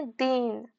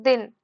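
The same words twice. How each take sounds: First: दीन with a drawn-out ee; long stressed vowel. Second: दिन with a short, unstressed i; short vowel. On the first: Teacher demonstrating the word for poor, दीन with long ee. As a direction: hold the ee in दीन longer. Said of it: "इसको बोलने में थोड़ा time लग रहा है". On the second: Teacher demonstrating the word for day, दिन with short i. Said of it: "शब्द में कोई बलाघात नहीं है". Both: Shown as a demonstration.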